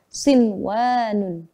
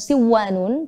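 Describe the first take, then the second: First: The n before the w is clearly pronounced. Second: The n before the w is merged away. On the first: The speaker calls it right. "tapi kita harus bacanya sinwanun" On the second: The speaker calls it wrong. "Bukan siwanun"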